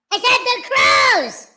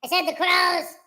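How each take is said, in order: First: Said as a loud shout, pitched up. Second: Said in the usual way. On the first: Shown as a demonstration. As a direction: yell it out loud.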